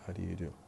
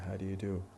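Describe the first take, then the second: First: Do and you merge into one weak syllable. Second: Do and you merge into one weak syllable.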